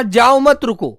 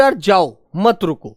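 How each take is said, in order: First: जाओ मत joined tightly, then रुको; pause after मत. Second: यार जाओ, a clear break, then मत रुको; pause after जाओ. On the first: Teacher retelling what was told, break after मत. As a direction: stress मत with जाओ, set off रुको. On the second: Teacher retelling what was understood, pause after जाओ. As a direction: set जाओ apart from मत रुको. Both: Shown as a demonstration. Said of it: "बोलने से ही हम इन बातों".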